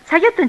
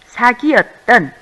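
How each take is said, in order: First: The word is said quickly in a contracted form. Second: The word is said with every syllable in full. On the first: The speaker calls it wrong. "우리는 말을 빨리 하다 보면은" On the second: The speaker calls it right.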